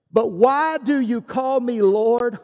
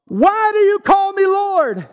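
First: Said in the usual way. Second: High, loud, confronting question; loud challenge. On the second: Acted. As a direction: raise your voice and demand an answer. Repeats Jesus's question as challenge.

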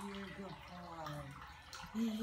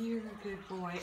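First: Soft slow coo. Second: Said in the usual way. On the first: Real, not acted. Cooing to a cat.

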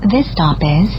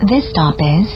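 Both takes have the same delivery.

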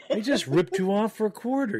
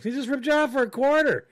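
First: First take, laughing. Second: Higher and louder, incredulous; indignant outburst. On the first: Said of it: "I'm like". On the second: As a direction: blurt it out higher and louder, fed up. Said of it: "You know me. I'm like". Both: Retold or imitated.

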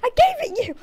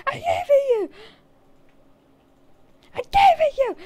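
First: Said in the usual way. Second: Higher, louder repeat; loud insistence. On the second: Shown as a demonstration. Player insisting to friend he gave the item, louder. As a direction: insist louder each time.

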